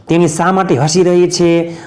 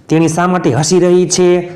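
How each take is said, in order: Both takes have the same delivery.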